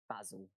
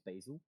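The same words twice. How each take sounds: First: The word is said with a British-sounding pronunciation. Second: The word is said with an American-sounding pronunciation. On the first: "The other" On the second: "which is more American sounding"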